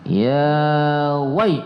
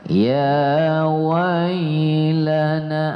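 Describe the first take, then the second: First: The 'wai' sound is cut off abruptly. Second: The 'wai' sound is drawn out softly. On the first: The speaker calls it wrong. "tidak boleh gitu ya" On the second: The speaker calls it right.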